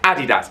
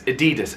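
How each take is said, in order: First: It is said the British way. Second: It is said the American way. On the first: "all the advertising in the U K like Adidas" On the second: "the advertising in the U S is Adidas"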